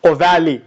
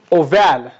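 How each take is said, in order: First: OVALE said as "oh-VAL-ee", three syllables; alternative pronunciation. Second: OVALE said as "oh-VAL", two syllables; alternative pronunciation. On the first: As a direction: sound the final E of "ovale" as "ee". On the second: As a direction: end "ovale" on the L, silent final E. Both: Shown as a demonstration. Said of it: "Some people pronounce this as like ovale".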